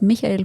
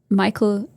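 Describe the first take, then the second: First: The name has a German pronunciation. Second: The name has an English pronunciation.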